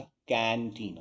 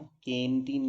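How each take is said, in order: First: Put-on कैंटीन as "kan-teen"; कैंटीन with the vowel of cat; correct "कै" vowel. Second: Put-on कैंटीन as "ken-teen"; closed e in कैंटीन; wrong "के" vowel. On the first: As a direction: open "ae" in कैंटीन. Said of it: "कैंटीन होता है". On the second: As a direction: say कैंटीन as केंटीन. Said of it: "कैंटीन नहीं होता". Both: Shown as a demonstration.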